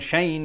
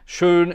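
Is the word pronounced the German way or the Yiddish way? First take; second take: Yiddish; German. First: The word is given its Yiddish pronunciation. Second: The word is given its German pronunciation. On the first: "schön in Yiddish" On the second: "Schön in German"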